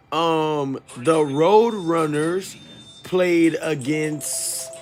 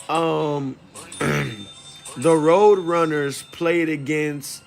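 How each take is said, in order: Both takes have the same delivery.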